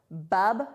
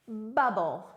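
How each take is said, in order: First: "bub-bull" as two separate, stressed syllables; louder, teacherly "bub-bull" with a gap between syllables; split into syllables. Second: Said in the usual way. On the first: Shown as a demonstration. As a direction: break it apart, "bub", then "bull". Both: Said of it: "that word has two syllables".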